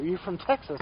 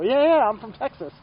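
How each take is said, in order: First: Said in the usual way. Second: Louder, higher, excited yeah yeah; eager retold reply. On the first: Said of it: "And he goes". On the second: Rider answering old shop owner, excited and loud. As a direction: burst out with happy agreement. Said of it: "And I go".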